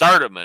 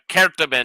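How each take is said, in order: First: It is said with the Southern pronunciation. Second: It is said with the Latin pronunciation. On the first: "as you would say it down here" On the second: "is the Latin pronunciation"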